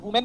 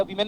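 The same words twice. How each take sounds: First: "वुमेन" starting with wu; rounded first vowel. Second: "वीमेन" starting with vee; ee first vowel. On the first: Teacher comparing two ways of saying women, wu sound. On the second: Teacher comparing two ways of saying women, vee sound. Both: Shown as a demonstration. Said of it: "हम वुमेन बोले या वीमेन बोले".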